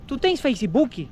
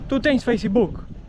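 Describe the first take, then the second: First: It is said with a Brazilian Portuguese accent. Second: It is said with a European Portuguese accent.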